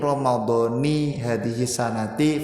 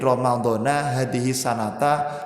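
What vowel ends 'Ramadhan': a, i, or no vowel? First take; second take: i; a. First: The word ends with a short i vowel. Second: The word ends with a short a vowel. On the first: The word is read as the second part of a possessive phrase. "tetap dibaca kasroh" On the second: The word is read as an adverb of time. "Dzaraf itu sampai hari kiamat wajib dibaca nah nasab"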